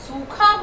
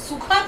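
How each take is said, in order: First: The first vowel is drawn out long. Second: The first vowel is said short and quick. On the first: The speaker calls it right. "हम सूखा बोलते हैं" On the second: The speaker calls it wrong. "हम सूखा तो नहीं बोलते"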